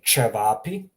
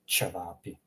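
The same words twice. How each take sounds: First: "cevapi" opening on a hard, heavy ch; wrong hard ch. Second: "cevapi" opening on a light soft ch; lower, quieter "cevapi" with soft first consonant; softer ch. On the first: Teacher showing what not to say, hard ch in "cevapi". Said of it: "So I didn't say cevapi". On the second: Teacher showing the nuanced sound, soft ch in "cevapi". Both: Shown as a demonstration.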